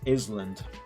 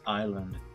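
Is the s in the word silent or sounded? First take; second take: sounded; silent. First: The s in the middle is pronounced. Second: The s in the middle is silent. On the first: The speaker calls it wrong. "I always thought that the word island was to be pronounced as island" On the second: The speaker calls it right. "the correct way to pronounce it was island"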